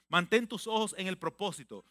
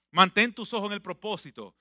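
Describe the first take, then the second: First: Said in the usual way. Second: Louder, pressing exhortation. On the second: Acted. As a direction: drive the command home. (exhortación enfática)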